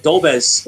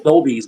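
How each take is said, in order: First: "Dolbez" ending in an eh sound; pronounced with "bez". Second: "Dolby's" ending in a long ee; pronounced with "bees". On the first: Offering one version of a name, "Dolbez" ending in bez. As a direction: say "Dolbez" with a short-e last syllable. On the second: Offering the other version of a name, "Dolby's" ending in bees. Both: Shown as a demonstration. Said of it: "whatever you wanna call him".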